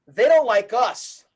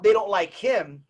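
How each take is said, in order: First: Slow down and land firmly on "us"; slow, emphatic "us" at the end; stress on US. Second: Said in the usual way. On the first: Real, not acted. Contrasts him with us.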